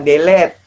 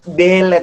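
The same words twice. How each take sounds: First: The stress is on the second syllable. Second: The stress is on the first syllable. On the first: The speaker calls it wrong. "bukan delete" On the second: The speaker calls it right. "Delete itu kanan di D"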